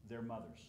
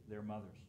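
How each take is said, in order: Both takes have the same delivery.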